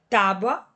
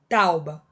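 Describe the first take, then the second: First: The U sound comes after the B. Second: The U sound comes before the B.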